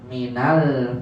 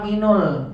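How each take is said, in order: First: The linking vowel after min is a. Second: The linking vowel after min is u. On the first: The speaker calls it right. "Karena sebelumnya kasroh" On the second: The speaker calls it wrong. "saya maunya minul, nggak bisa"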